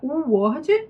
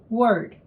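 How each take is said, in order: First: It begins with a separate full oo vowel. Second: It begins with a quick light w glide. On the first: The speaker calls it wrong. "se fosse com U, seria U word" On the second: The speaker calls it right. "W sound, but it's like, like your name"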